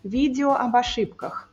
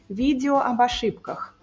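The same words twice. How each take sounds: First: The unstressed vowels are reduced and weakened. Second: The same.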